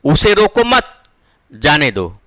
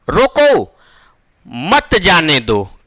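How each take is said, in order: First: The pause comes after the word mat. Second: The pause comes after the word roko.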